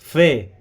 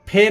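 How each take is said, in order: First: The first sound uses upper teeth on lower lip. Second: The first sound is made with both lips. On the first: The speaker calls it right. "ऊपर के दांतों का किनारा नीचे के होठ से लगाएंगे" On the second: The speaker calls it wrong. "इसको हम फे नहीं पढ़ेंगे, दोनों होठ मिला के"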